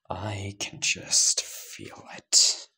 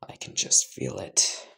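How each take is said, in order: First: Very slow, breathed-out whisper; menacing hushed repeat. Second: Said in the usual way. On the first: Acted. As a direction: savour each word, almost whispering. Line said twice.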